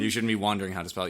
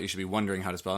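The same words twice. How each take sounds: First: "wondering" said as WAHN-dering, with an ah; quick correction, "wondering" sounded like wandering; WANDERING vowel. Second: "wondering" said as WUN-dering, with an uh; WONDERING vowel. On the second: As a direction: correct it to "wondering", uh in the first syllable. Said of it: "you shouldn't be wondering how to spell it". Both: Shown as a demonstration.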